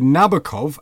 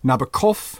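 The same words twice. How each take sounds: First: The stress is on the first syllable. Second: The stress is on the last syllable. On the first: "Englishmen say Nabokov, accent on the first" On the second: "Frenchmen, of course, say Nabokov with the accent on the last syllable"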